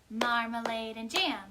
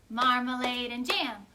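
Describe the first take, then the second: The two takes are said the same way.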